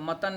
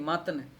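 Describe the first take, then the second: First: The word is said in a careless pronunciation. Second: The word is said in a careful pronunciation. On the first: The speaker calls it wrong. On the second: The speaker calls it right.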